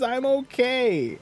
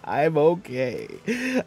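First: High, drawn-out put-on insistence; hammed-up high, slow protest; mock reassurance. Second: Put-on doubtful, stretched-out delivery; mock faltering reassurance. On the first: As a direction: pitch it way up and stretch it. Protests after mock charity appeal. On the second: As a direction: drag it out, less convincingly. Second, less sure mock reassurance.

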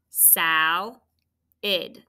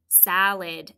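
First: "Sal-id" as two syllables with a clear pause; split by syllable. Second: Said in the usual way. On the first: Shown as a demonstration. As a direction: sound out "Sal-id" piece by piece, SAL, then id. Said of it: "where's that tricky schwa sound go". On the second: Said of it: "Say it".

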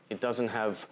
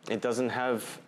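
The two takes are said the same way.

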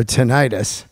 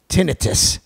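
First: "tinnitus" with a long eye sound in the middle; "tinnitus" stressed on the second syllable; tin-EYE-tus. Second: "tinnitus" stressed on the first syllable, short i; TIN-ih-tus. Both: Shown as a demonstration. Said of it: "I like to say it both ways".

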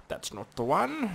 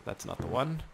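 First: Higher mock-character repeat; playful higher-pitched put-on voice. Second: Said in the usual way. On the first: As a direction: echo it in a silly, high voice.

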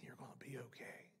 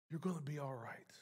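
First: Gentle whisper, much softer and lower; whispered reassurance. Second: Said in the usual way. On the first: Retold or imitated. Preacher whispering God's comfort to the grieving, soft whisper. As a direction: breathe the words like a quiet promise.

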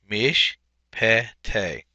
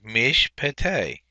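First: "Mishpete" broken into mish, pe, te; three separated syllables in "Mishpete". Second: Said in the usual way. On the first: Shown as a demonstration. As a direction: sound out "Mishpete" slowly, pausing between syllables. Teacher repeats word syllable by syllable.

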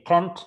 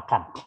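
First: Can't said with a flat front vowel, like kent; American can't. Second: Can't said with an open "ah" vowel, like kant; broad-vowel can't; British can't. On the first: Teacher repeating the American can't for the class, like kent. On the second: Teacher answering with the British can't, open kant. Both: Shown as a demonstration. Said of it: "baik can't maupun can't".

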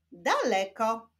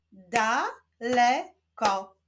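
First: Said in the usual way. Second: DA, LE, KO, slowly with gaps; syllable by syllable. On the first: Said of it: "Powstaną z nich wyrazy". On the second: Shown as a demonstration. Teacher joining syllables into a word, Da-le-ko slowly split apart. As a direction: slowly break "Daleko" into three syllables. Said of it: "łączmy sylaby".

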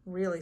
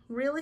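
First: Simple reassuring "Really"; confirming answer. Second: High, rising "Really?"; acted wondering "Really?" as a question; surprised question. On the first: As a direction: answer "Really" at an everyday pitch, no question. Joey confirms Clark's question. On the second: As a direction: ask "Really?" in hopeful disbelief, pitched up. Clark asks, surprised by offer. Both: A narrator's reading.

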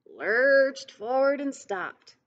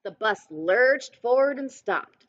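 First: Slow and drawn out, mimicking the lurching bus; slow lurching repeat. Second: Said in the usual way. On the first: A narrator's reading. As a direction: let the bus lurch in the words. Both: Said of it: "repeated line, acted slower".

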